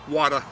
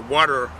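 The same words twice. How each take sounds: First: It is said in a Boston accent. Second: It is said in a general American accent.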